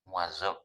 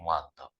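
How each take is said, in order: First: The middle consonant is a soft z sound. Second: The middle consonant is a heavy d sound.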